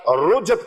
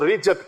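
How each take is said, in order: First: The first vowel is a 'u' sound. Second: The first vowel is an 'i' sound. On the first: "कई हजरात रुजत कहते हैं" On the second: "कई हजरात इसको रिजत कहते हैं"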